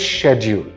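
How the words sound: The word is said with a British pronunciation. "whereas in U K, this word is schedule"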